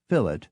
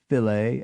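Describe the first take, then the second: First: It is said with an anglicized pronunciation. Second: It is said with a French-like pronunciation.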